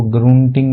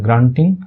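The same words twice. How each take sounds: First: ग्रूंटिंग said with a long oo sound in the first syllable; wrong pronunciation. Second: ग्रंटिंग said with a short uh sound, grun-ting; correct pronunciation. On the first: Teacher shows students the wrong way to read it, mock-wrong. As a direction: say ग्रूंटिंग as groon-ting, the way it should not be said. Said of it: "इसको ग्रूंटिंग नहीं पढ़ते". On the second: Teacher gives students the right reading, clear. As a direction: say ग्रंटिंग with the short vowel, not oo. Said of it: "ऐ का ही sound होता है". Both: Shown as a demonstration.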